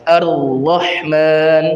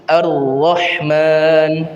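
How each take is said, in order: The two takes are said the same way.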